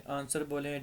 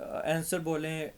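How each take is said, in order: First: आंसर said as "ansər" with a broad a; आंसर in the British way, long "aa"; British answer. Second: आंसर said as "ɛnsər" with a flat short a; आंसर in the American way, "ɛnsər"; American answer. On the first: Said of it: "British English में आप इसको". (आंसर British उच्चारण "आन्सर") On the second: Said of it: "American English इसको आंसर का". (आंसर अमेरिकी उच्चारण "ऐंसर") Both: Shown as a demonstration.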